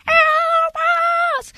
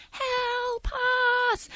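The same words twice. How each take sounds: First: Very high, loud, screechy wail; louder, urgent screech. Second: High, soft, drawn-out wail; faint, high call for help from far off; faint cry. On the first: Mysterious night noise growing more urgent, screechy cry. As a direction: screech it out urgently, long and piercing. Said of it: "a bit louder and a bit more urgent and a bit more screechy". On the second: Noise in the background of a night campground, faint eerie cry. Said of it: "starts getting a bit louder". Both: Retold or imitated.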